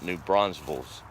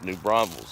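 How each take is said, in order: First: An s sound follows the n. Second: There is no s sound after the n. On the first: The speaker calls it wrong. "It's not" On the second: The speaker calls it right. "There's no S after the N"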